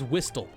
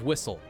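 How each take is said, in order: First: Every letter is sounded out literally. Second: It is said the ordinary, usual way. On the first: The speaker calls it wrong. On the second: The speaker calls it right.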